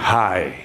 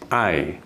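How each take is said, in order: First: The word starts with an h sound. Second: The word starts with a vowel, no h. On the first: The speaker calls it wrong. "bukan hi" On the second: The speaker calls it right. "ini diucapkannya I"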